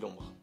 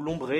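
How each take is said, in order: First: The name ends with a weak or silent e. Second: The name ends with a clear 'ay' vowel. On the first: This is how the speaker says it. "moi je dis l'ombre, il n'y a pas d'accent" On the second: Some other people say it this way. "il y en a qui disent l'ombré"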